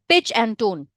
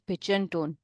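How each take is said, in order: First: It is said in a firm, assertive way. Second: It is said in a flat, unassertive way. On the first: The speaker calls it right. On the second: The speaker calls it wrong. "instead of saying"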